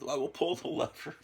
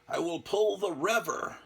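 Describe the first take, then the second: First: The word 'lever' starts with an L sound. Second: The word 'lever' starts with an R sound. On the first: "instead of" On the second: "he says it with an R sound"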